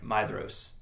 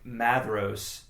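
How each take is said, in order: First: The first syllable sounds like 'my'. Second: The first syllable sounds like 'mad'. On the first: The speaker calls it right. "it's actually like Mydros" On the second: The speaker calls it wrong. "I started out thinking it was like Madros"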